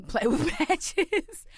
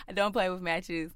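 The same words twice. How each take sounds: First: Higher, slow, broken up by laughter; laughing. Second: Said in the usual way. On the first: Real, not acted. Storyteller on the lesson learned to this day, laughing. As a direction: laugh through the words, stretching them out.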